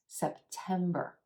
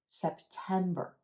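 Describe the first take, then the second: No difference in how they are said.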